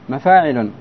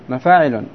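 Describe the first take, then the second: The two takes are said the same way.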